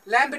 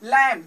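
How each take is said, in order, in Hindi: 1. अंत में b की ध्वनि उच्चारित होती है। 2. यह शब्द m पर खत्म होता है, इसमें b नहीं है। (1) "लैम्प नहीं" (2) "एम के आगे क्या है, बी साइलेंट है"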